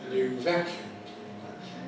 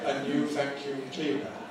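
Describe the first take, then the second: First: The main stress falls on vacuum. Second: The main stress falls away from vacuum. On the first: The speaker calls it right. "It should be" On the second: The speaker calls it wrong. "It's got the wrong stress pattern"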